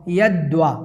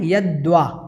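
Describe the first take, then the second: First: A clear 'v' sound follows the 'd'. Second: A clear 'v' sound follows the 'd'.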